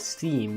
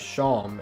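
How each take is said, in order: First: The vowel sounds like the one in 'team'. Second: The vowel sounds like the one in 'dawn'. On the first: The speaker calls it wrong. "I thought that this was pronounced as Steam because it rhymes with team and beam" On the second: The speaker calls it right. "is actually pronounced as Shawm"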